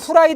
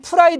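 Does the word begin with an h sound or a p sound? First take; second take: h sound; p sound. First: The word begins with an h sound. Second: The word begins with a p sound. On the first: The speaker calls it wrong. "후라이드는 틀리고" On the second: The speaker calls it right. "프라이드가 맞습니다"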